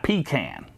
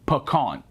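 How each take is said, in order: First: The first syllable sounds like 'pee'. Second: The first syllable does not sound like 'pee'. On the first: The speaker calls it wrong. "a pecan is what you do when you're in the woods" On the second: The speaker calls it right. "pecan, not pecan"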